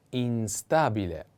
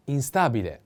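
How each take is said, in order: First: Instabile slowed down, in-STA-bi-le, stress on the a; slow model word. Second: Said in the usual way. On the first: Shown as a demonstration. Teacher spelling out the word for students, slow. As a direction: say Instabile slowly for learners. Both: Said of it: "The accent is on A".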